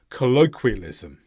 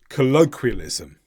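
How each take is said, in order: First: A w sound follows the k sound. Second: The same.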